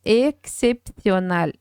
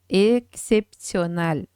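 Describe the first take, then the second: Both takes have the same delivery.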